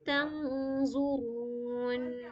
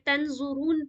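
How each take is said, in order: First: The n sound is hidden and nasalized. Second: The n sound is pronounced clearly and fully. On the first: The speaker calls it right. "सही तरीका क्या है पढ़ने का यहाँ पे" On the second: The speaker calls it wrong. "नून को बिल्कुल भी जाहिर तंजुरून पढ़ेंगे तो गलत हो जाएगा"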